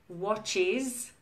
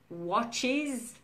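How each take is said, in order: Both takes have the same delivery.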